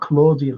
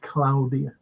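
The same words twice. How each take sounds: First: The name is said with an English pronunciation. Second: The name is said with an Italian pronunciation. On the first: The speaker calls it wrong. "it's not Claudia" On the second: The speaker calls it right. "That's how you pronounce the Italian way"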